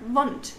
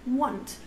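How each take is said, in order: First: The word begins with a V sound. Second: The word begins with a W sound.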